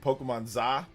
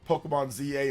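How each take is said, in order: First: ZA is spoken as a single syllable. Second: ZA is spoken as two separate letters. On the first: The speaker calls it wrong. "That just sounds weird" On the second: The speaker calls it right. "I'm pretty sure it's pronounced Pokemon Z A"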